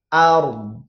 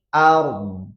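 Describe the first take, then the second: First: The final vowel is cut short to a trace. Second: The final vowel is cut short to a trace.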